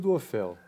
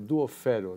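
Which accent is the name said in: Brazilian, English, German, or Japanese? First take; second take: Brazilian; Japanese. First: It is said with a Brazilian Portuguese pronunciation. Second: It is said with a Japanese pronunciation. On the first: This is how people say it in Brazil. "No Brasil" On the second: This is how people say it in Japan. "No Japão ficou"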